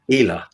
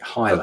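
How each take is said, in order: First: The first vowel sounds like ee. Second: The first vowel sounds like eye. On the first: This is the original pronunciation. The speaker calls it right. "It's actually pronounced Hila" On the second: This is how English speakers say it. The speaker calls it wrong. "that's how an English speaker would say it"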